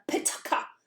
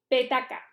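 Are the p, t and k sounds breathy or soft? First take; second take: breathy; soft. First: The p, t and k release strong puffs of air. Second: The p, t and k release little air. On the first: "cuando lo pronuncias en inglés tiene que llegarte el aire mucho más fuerte" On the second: "Tú lo pronuncias y te da un poquito el aire"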